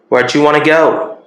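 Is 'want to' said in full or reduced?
reduced. 'Want to' is reduced to 'wanna', American style.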